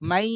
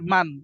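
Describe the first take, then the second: First: The n merges into a nasalized y sound. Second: The final n sound is clearly pronounced. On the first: "মান না পড়ে পড়বো মাই" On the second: "মিম নুন জবর মান"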